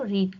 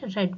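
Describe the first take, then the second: First: The vowel is long, like 'ee'. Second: The vowel is short, like 'e'. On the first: It is the first form of the verb. "Pronunciation रीड की different है" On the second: It is the third form of the verb. "Third form में रेड बोला जाएगा"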